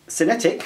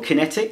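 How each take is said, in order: First: The word begins with an S sound. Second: The word begins with a K sound. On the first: "I would say cinetic" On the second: "I would have thought kinetic would be with a K"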